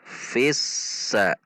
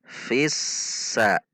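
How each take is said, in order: Both takes have the same delivery.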